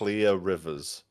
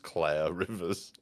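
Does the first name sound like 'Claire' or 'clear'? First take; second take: clear; Claire. First: The first name rhymes with 'near'. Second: The first name rhymes with 'air'. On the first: "She's called Clear Rivers" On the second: "occasionally pronounced as Claire Rivers"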